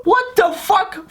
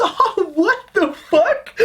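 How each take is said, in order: First: Much higher, slow put-on squeal; mock disbelief. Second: Much higher, slow, put-on squeal of disbelief; mock disbelief. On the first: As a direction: stretch it out in fake shock. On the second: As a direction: squeal it out like a baffled heckler. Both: His mocking reaction.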